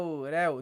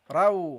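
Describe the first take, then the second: First: The r is light, with the tongue not raised. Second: The r is heavy, with the tongue raised. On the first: The speaker calls it wrong. "Don't say raw, raw" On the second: The speaker calls it right. "Make it heavy"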